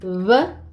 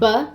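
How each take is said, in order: First: The lips nearly touch, letting air pass. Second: The lips close fully, stopping the air. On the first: "they're called aproximantes because they don't fully make contact" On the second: "Oclusiva is when your mouth or the your tongue completely closes"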